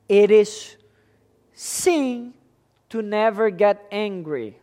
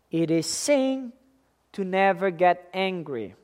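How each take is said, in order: First: Said in the usual way. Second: Never get angry with NEVER leaned on; stress on NEVER. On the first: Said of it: "first take". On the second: Shown as a demonstration. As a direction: press the word never as the key. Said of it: "repeated for emphasis".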